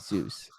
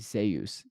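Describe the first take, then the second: First: The name is said the usual English way. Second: The name is said in an unusual way. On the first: This is how the god's name is said. The speaker calls it wrong. "They can't say Zeus, even though it's spelled like Zeus" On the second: This is how the player wants his name said. The speaker calls it right. "all the casters have to say Zeus"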